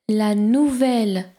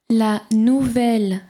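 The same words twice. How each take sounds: No difference in how they are said.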